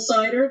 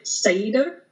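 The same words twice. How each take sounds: First: The r sound is plain, not rolled. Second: The r sound is rolled on the tongue. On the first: "like apple cider" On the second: "You kind of get a roll on the tongue"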